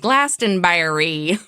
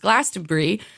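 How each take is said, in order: First: The ending is said fully, like 'berry'. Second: The ending is said short, like 'bree'. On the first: This is how an American would read it. "as an American, I definitely would read that as Glastonbury" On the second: This is the British way of saying it. "it's actually pronounced Glastonbury"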